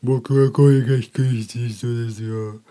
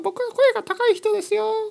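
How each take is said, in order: First: It is said in a low-pitched voice. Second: It is said in a high-pitched voice.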